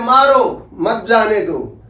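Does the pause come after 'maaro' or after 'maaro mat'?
after maaro. The pause comes right after 'maaro'.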